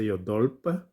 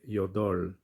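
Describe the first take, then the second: First: The word ends with an added p sound. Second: The word ends on the l sound. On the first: The speaker calls it wrong. "we don't say yodolp" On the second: The speaker calls it right. "we say yodol"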